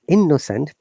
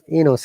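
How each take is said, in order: First: The middle n sound is held long, doubled. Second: The middle n sound is short, said once. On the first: The speaker calls it wrong. "So it is not innocent" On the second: The speaker calls it right. "No, it is innocent"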